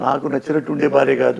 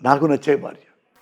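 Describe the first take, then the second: First: ఉండే leaned on, a wife who merely behaves as I like; weight on ఉండే, not on నాకు; stress on ఉండే. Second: నాకు hit first and firm, the wife I myself love; stress on నాకు. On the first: (ఉండే మీద ఒత్తి చెప్పడం) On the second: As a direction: put the weight on నాకు to correct the line before. (నాకు మీద ఒత్తి చెప్పడం) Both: Shown as a demonstration.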